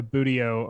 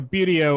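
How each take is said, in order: First: "buteo" said BOO-dee-oh; "buteo" opening like "boo"; alternative pronunciation. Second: "buteo" said BYOO-dee-oh; "buteo" opening like "beauty"; alternative pronunciation. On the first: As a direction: say "buteo" with a plain boo, no y glide. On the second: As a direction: say "buteo" with a y glide after the b, as byoo. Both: Shown as a demonstration. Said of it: "or however you wanna pronounce that".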